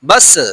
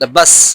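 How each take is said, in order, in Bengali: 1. শেষ ব্যঞ্জনটি প্রতিধ্বনিময় ঝাঁকুনি দিয়ে শেষ হয়। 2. শেষ ব্যঞ্জনটি ঝাঁকুনি ছাড়া সাধারণভাবে শেষ হয়।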